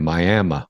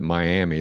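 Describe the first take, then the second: First: The name is said the local residents' way. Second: The name is said the common outsider way. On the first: The speaker calls it right. "it's it's Miami, Miami" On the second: The speaker calls it wrong. "you don't want to pronounce it Miami. Those people get pissed"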